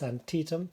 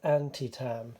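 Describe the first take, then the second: First: The name is said in its learned form. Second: The name is said as an English reader guesses. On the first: This is how it is actually pronounced. The speaker calls it right. "I've learnt that it's Antietam" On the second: This is how an English reader would read it. The speaker calls it wrong. "being English, I would have read this as Antitam"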